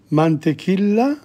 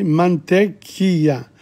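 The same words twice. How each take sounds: First: Mantequilla with the double L said as a plain L, "man-te-KIL-la"; first try at mantequilla. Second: Mantequilla with the double L as a Y sound, "man-te-KEE-ya"; corrected Spanish word. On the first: Learner sounding out a Spanish shopping list, L pronounced. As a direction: read mantequilla as spelt, sounding the L. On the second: Learner correcting himself on the shopping list, LL as Y. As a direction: say mantequilla with no L, the LL gliding like a Y. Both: Shown as a demonstration. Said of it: "double L is not pronounced".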